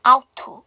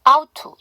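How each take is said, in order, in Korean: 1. 첫 번째 t는 빠지고, 'to'는 완전하게 남습니다. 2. 첫 번째 t는 빠지고, 'to'는 완전하게 남습니다.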